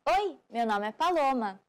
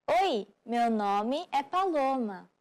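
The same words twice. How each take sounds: First: Said in the usual way. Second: "Oi, meu nome é Paloma" said slowly, each word spaced out; slow it right down for repeating; slow model. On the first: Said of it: "Just use prazer". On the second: Shown as a demonstration. Teacher repeating the phrase slowly for learners to copy, slow. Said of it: "Let's check what you've learned".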